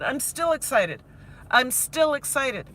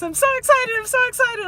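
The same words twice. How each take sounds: First: Said in the usual way. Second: High, loud mock-excited squeal; gushing excitement. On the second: Teacher mimicking herself when she started these vlogs, gushing excitement. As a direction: imitate your giddy earlier self, pitched way up. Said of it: "remember, uh, when I started these vlogs".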